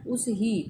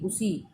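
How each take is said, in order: First: The two words are said separately, h sounded. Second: The words merge into one, h dropped.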